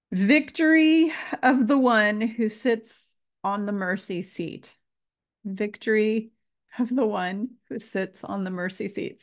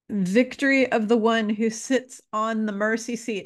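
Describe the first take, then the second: First: Fighting back tears on each word; real emotion breaking through; getting emotional. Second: Said in the usual way. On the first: Real, not acted. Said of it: "Sorry, I'm getting emotional again". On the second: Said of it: "let me say this one more time".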